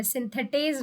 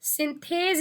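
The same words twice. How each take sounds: First: सिंथेटेज said as sin-the-tez, with the extra te syllable; the mistaken form सिंथेटेज, three syllables; wrong pronunciation. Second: सिंथेज said as sin-thez, two syllables, no extra te; सिंथेज, the right two-syllable name; correct pronunciation. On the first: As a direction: show the common error सिंथेटेज. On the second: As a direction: say सिंथेज short, no -टे- in the middle. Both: Shown as a demonstration. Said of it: "सिंथेटेज नहीं बोलेंगे आप".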